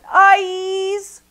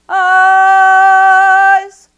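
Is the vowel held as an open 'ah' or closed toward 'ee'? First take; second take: closed ee; open ah. First: The vowel closes toward an ee sound. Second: The vowel stays on an open ah sound. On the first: The speaker calls it wrong. "rather than" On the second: The speaker calls it right. "actually is going to have an ah sound"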